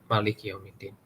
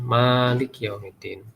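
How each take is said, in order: First: The first vowel of malik is kept short. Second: The first vowel of malik is held long. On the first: "Ada yang baca pendek" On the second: "dibacanya panjang itu"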